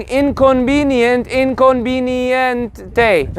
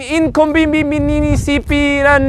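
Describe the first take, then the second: First: Inconveniente said slowly, just English plus a final e; slow clean model of inconveniente; slow correct model. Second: Inconveniente stretched into a long string of extra syllables; mock a learner piling syllables into inconveniente; babbling, over-syllabled inconveniente; mangled learner attempt. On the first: Shown as a demonstration. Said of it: "it's literally the same thing". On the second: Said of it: "Then they try to say it in Spanish".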